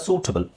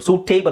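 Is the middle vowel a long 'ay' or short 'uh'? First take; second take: short uh; long ay. First: The middle vowel is a short 'uh' sound. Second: The middle vowel is a long 'ay' sound. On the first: The speaker calls it right. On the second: The speaker calls it wrong. "ಸೂಟೇಬಲ್ ಅಲ್ಲ"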